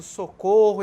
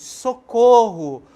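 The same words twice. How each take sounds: First: Said in the usual way. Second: Slow, loud call of socorro; cry for help. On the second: Shown as a demonstration. Teacher demonstrating a cry for help, calling out. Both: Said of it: "este pedido de ajuda".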